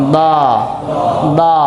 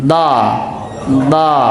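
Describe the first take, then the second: The two takes are said the same way.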